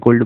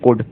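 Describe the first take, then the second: First: "could" said as "kold", L sounded; mispronounced could. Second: "could" with a silent L, like "kud"; correct could pronunciation. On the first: Teacher showing many students' mistake, "could" read as "kold". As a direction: sound the L in "could", rhyming with "old". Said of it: "जो कि wrong है". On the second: Teacher giving students the correct reading, "could" with silent L. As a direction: drop the L completely in "could". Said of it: "इसका सही pronunciation होगा". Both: Shown as a demonstration.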